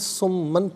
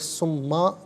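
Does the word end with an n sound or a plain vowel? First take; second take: n sound; plain vowel. First: The word ends with an n sound. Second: The word ends with a plain long vowel. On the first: The reading continues without stopping. "इसे नाज़रीन सुम्मन पढ़ेंगे" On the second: The reading stops at this word. "वफ़ की सूरत में सुम्मा पढ़ा जाएगा"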